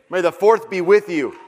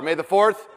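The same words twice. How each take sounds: First: Louder call. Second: Said in the usual way. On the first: Shown as a demonstration. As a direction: call it out loud to the room. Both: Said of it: "Say it louder".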